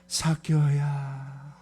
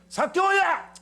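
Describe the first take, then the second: First: The name is called in a warm, loving tone. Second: The name is called out in an angry tone. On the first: The caller deeply loves the person. The speaker calls it right. "가장 사랑이 많은, 사랑이 막 폭포수같이 흘러내리는 그런 마음으로 부르는 이름" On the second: The caller is irritated with the person. The speaker calls it wrong. "이래 성질난 모습일까요?"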